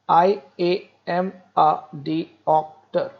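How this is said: It is said in separated, evenly stressed syllables.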